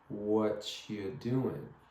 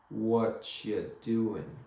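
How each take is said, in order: The two takes are said the same way.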